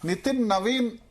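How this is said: The surname starts with a v sound. This is how it is said locally here. "Nitin నవీన్ అని మనం అనొచ్చు"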